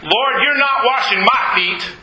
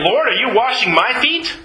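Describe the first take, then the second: First: Firm refusal, "feet" falling at the end; emphatic statement with a final fall on "feet". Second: "washing my feet" as a surprised question, lifting upward. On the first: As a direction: flatly forbid it, "not" and "my" hit hard. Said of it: "has it very emphatically saying". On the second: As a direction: ask it as a question, "feet" rising at the end. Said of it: "not exactly a good way of translating". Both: Acted.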